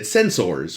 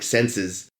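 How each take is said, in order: First: The word is said with careful, exaggerated clarity. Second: The word is said loosely, in a Boston accent. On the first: The speaker is guarding against an accent slipping out. "a very you know Mister Spock way to say sensors" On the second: The speaker's natural accent slips out. "it would become like senses"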